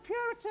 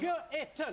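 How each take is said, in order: First: It is said in a high-pitched voice. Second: It is said in short, choppy, separated syllables. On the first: "Saying it in a high voice" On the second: "Saying it in a staccato fashion"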